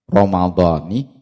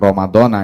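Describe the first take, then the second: First: The word ends with an 'i' vowel. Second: The word ends with an 'a' vowel. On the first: The word is grammatically joined to the following phrase. The speaker calls it right. "dibaca jer, artinya berharokat kasrah" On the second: The word is cut off from the following phrase. The speaker calls it wrong. "bukan ramadhana"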